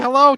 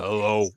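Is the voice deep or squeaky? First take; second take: squeaky; deep. First: The voice is high and squeaky. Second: The voice is low and deep. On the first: A young boy is speaking. "he had a pretty squeaky voice" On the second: The boy's voice has broken. "overnight his voice changed"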